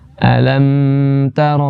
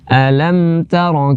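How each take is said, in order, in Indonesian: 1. Huruf m ditahan terlalu lama. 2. Huruf m ditahan dengan panjang yang sedang. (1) "jangan terlalu lama ... bukan" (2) "tapi per pertengahan"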